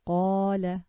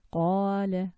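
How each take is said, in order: First: "Qala" said slowly, the long a drawn out from the chest; "Qala" with a long open a; long a demo. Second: "qala" with a throaty q and a held a; repeated long a demo. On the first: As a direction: stretch the a in "Qala". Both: Shown as a demonstration. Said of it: "which is the fatha".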